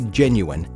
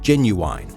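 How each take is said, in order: First: The last syllable is a short, unstressed 'in'. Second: The last syllable sounds like the word 'wine'. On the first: The speaker calls it right. "they didn't say genuine" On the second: The speaker calls it wrong. "they said genuine"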